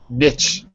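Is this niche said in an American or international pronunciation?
American. The word is said with an American pronunciation. "in American English we say niche"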